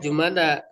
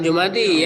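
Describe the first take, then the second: First: The word ends with an 'a' vowel. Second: The word ends with an 'i' vowel. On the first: The speaker calls it right. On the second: The speaker calls it wrong. "Bukan Jumadi ya"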